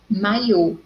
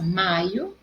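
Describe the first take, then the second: First: "maiô" with final closed O stressed; stress on last syllable. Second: "Maio" with MAI stressed, unstressed ending; stress on first syllable. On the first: Teacher contrasting it with the month, "maiô" stressed on final Ô. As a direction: land firmly on the closing O of "maiô", mai-Ô. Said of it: "no o, acento circunflexo". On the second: Teacher showing the difference to students, "Maio" stressed on MAI. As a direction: lean on MAI in "Maio", let the O go. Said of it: "a sílaba forte é mai". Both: Shown as a demonstration.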